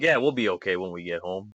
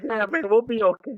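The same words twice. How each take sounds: First: Low, quick reassuring aside; mock reassurance. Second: High, giggly mock-tearful voice; tearful laughing. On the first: Retelling a buddy comforting him as he teared up, mock reassurance. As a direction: lightly play the steady buddy, pitched down. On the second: Soldier retelling his reply to his buddy, tearful laughing. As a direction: play it choked up with laughter, pitched way up. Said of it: "tearing up, but we were laughing".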